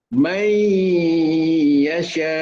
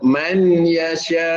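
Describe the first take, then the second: First: The n merges into y with a long nasal hum. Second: The n is pronounced fully before the y. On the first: The speaker calls it right. "dengungkan dalam keadaan bibir dijatuhkan" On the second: The speaker calls it wrong. "tidak boleh dibaca man yasha ya, ataupun man yasha disempurnakan nun"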